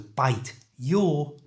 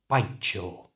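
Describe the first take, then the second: First: The t and y sounds stay separate. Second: The t and y merge into ch.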